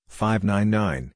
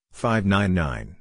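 First: Five nine nine, slow, stress on five, falling at the end; falling report. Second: Five nine nine, slow, stress on five, lifting at the end; rising report. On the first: Ham operator giving a signal report, slow with a falling close. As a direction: read five nine nine slowly and settle down on the last nine. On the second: Ham operator repeating the signal report, slow with a rising close. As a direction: say five nine nine slowly and turn it up like a check. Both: Shown as a demonstration. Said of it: "radio report drill".

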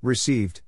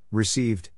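No difference in how they are said.

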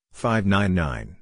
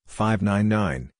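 The two takes are said the same way.

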